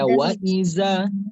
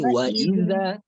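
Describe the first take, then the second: First: The z sound is made with the tongue further back. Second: The z sound is made with the tongue at the front. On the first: The speaker calls it wrong. "Jangan sampai terbaca wa iza" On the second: The speaker calls it right. "hazanya di depan"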